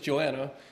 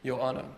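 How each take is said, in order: First: The name is said with an English pronunciation. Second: The name is said with a Greek-style pronunciation. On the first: "in English it's Joanna" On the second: "think either Greek or Spanish pronunciation"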